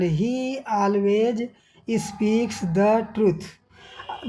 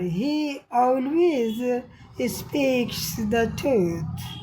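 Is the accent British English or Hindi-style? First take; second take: Hindi; British. First: It is spoken with a Hindi-style accent. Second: It is spoken with a British English accent. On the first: "Hindi भाषा में उच्चारण" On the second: "British अंग्रेजी भाषा में उच्चारण"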